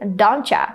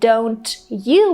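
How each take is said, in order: First: The words blend with a 'cha' sound. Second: Both words are said fully and separately. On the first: "we can just say don't cha" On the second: "Instead of saying don't you"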